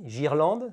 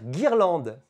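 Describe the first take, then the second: First: It begins with a soft zh sound. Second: It begins with a hard g sound. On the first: The speaker calls it wrong. "cela fera J, girlande, ce qui ne fonctionne pas" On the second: The speaker calls it right. "Je dois donc mettre un U pour faire guirlande"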